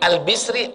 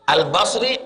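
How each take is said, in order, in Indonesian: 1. Vokal setelah b adalah i. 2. Vokal setelah b adalah a. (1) "Tiga-tiga betul" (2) "Tiga-tiga betul. Tapi yang masyhur Al-Basri"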